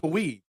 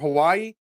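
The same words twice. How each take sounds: First: It is pronounced the Spanish way. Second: It is pronounced the usual English way. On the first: "is Hawaii" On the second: "Mexican for Hawaii"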